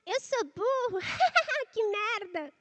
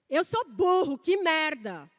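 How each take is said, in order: First: It is said in a silly witch-like voice. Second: It is said loudly, like a shout. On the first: "Por exemplo, a da bruxa" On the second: "você vai aumentar, como se fosse um berro"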